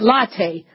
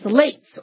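First: It is said like the coffee word 'latte'. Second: It is said like 'lates', rhyming with 'gates'. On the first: "or is it latte, like a latte cappuccino?" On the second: "L-A-T-E-S, lates"

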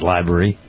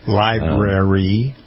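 First: The word is pronounced in a sloppy way. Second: The word is pronounced in a careful way. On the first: The speaker calls it wrong. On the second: The speaker calls it right.

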